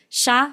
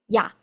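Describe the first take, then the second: First: It starts with a 'sh' sound. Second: It starts with a 'y' sound. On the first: The speaker calls it wrong. "como si fuera una S H" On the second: The speaker calls it right.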